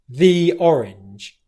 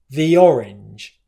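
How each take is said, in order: First: The word 'the' is long and stressed. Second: The word 'the' is short and unstressed. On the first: "where I'm really stressing the word the" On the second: "almost like a short vowel sound"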